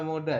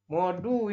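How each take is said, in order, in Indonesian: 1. Vokal akhirnya adalah 'a' terbuka. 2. Vokal akhirnya adalah 'u' bulat. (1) "bukan moda" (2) "Modu ini ya"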